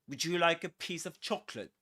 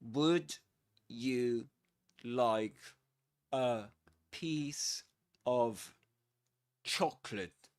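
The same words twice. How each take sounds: First: It is said fast with words run together. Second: It is said slowly with words kept separate.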